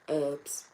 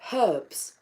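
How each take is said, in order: First: The word starts without an h sound. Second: The word starts with an h sound. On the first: This is how people elsewhere say it. The speaker calls it wrong. "we don't sound like that" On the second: This is how the speaker's own people say it. The speaker calls it right. "We have a, a, a herbs"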